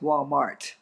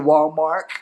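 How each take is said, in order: First: The final T sound is clearly pronounced. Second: The final T sound is left off. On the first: The speaker calls it right. "it's Walmart with a T" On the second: The speaker calls it wrong. "she would say Walmart"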